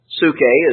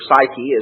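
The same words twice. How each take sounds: First: The word has a Greek-style pronunciation. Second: The word has an English-style pronunciation. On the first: "Psyche is the Greek word" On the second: "as we uh, pronounce it in English"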